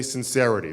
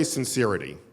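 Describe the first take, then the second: First: Said in the usual way. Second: SINCERITY with "seer" in the middle, sin-SEER-ity; sincerity pronounced sin-SEER-ih-tee; wrong vowel sincerity. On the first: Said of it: "You say sincerity". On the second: Shown as a demonstration. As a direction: keep the long ee of sincere in sincerity. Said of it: "You don't say sincerity".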